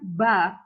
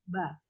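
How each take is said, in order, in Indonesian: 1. Bunyinya tebal dan berat. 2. Bunyinya tipis dan ringan. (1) "ba yang kedengarannya kayak tebal sekali hurufnya ... itu tidak boleh" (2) "setipis mungkin Anda mengucapkannya"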